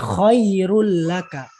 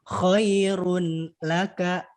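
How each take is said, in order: First: The n merges into a doubled l sound. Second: The n is pronounced clearly before the l.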